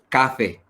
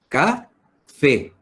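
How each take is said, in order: First: The stress is on the first syllable. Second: The stress is on the last syllable. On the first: The speaker calls it wrong. "no es café" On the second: The speaker calls it right. "la voz se carga en la última sílaba"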